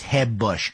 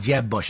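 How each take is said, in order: First: The J is a Spanish-style H sound. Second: The J is an English J sound.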